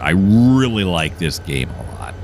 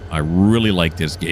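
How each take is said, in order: First: Slow, with "really" leaned on hard; drawn out, hitting "really"; stress on really. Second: Said in the usual way. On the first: Real, not acted. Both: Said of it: "If you haven't guessed yet".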